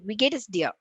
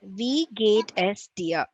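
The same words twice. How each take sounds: First: The phrase is spoken very quickly. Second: The phrase is spoken slowly. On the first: "Fourth speed" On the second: "read it once"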